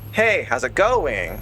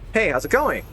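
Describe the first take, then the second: First: The voice falls at the end. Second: The voice rises at the end. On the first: The local Pennsylvania way of asking. "They go down" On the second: The usual way of asking.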